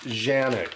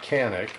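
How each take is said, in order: First: The name begins with a 'j' sound. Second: The name begins with a 'k' sound. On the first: The speaker calls it right. "that is pronounced Janik" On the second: The speaker calls it wrong. "It's not Canik"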